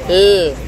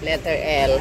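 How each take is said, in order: First: The letter is said as its reading sound. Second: The letter is said by its alphabet name. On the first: "Ang basa sa kanya"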